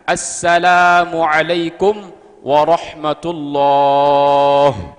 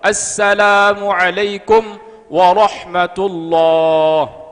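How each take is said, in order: First: The h sound in warahmatullahi is clearly heard. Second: The h sound in warahmatullahi is dropped. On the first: The speaker calls it right. "Ada hak di situ" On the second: The speaker calls it wrong. "berarti haknya hilang"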